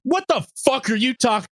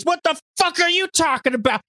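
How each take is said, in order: First: Mock angry snap, high-pitched; high, indignant retort in a cartoon voice; Videl. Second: Very high mock scream; hammed-up shrieking mother, pitched way up; Chi-Chi. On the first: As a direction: blow up at an accuser, hammed-up. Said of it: "Videl snaps and is like". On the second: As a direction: screech it right back in the face. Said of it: "they just start screaming at each other".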